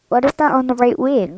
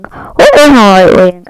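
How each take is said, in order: First: Said in the usual way. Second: Calling out loudly, alarmed; startled loud question. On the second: Real, not acted. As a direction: shout it at the friends, startled. Strange thing seen on plane wing.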